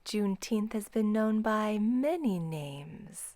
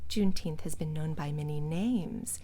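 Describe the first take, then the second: First: The word many carries the main stress. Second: The word names carries the main stress. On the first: "Here she's stressing many" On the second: "We would stress names because that's the noun"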